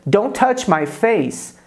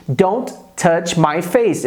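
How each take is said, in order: First: "Don't touch my face." said slowly, each word clear; teacher models slowly for students, clear and slow; slow model sentence. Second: "Don't touch my face." repeated slowly, stress on face; teacher repeats for students, slow and clear. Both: Shown as a demonstration.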